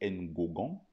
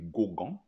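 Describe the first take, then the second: First: The name is adapted to French sounds. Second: The name is adapted and loses its first sound. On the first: "on dit Ngogan" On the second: "ou bien on dit Gogan"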